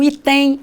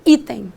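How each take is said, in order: First: The stress is on the second syllable. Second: The stress is on the first syllable. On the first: The speaker calls it wrong. "Eu não digo que vou marcar o item" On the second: The speaker calls it right. "Eu ponho força na primeira sílaba"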